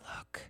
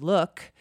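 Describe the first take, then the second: First: It is said in a put-on character voice. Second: It is said in her normal voice.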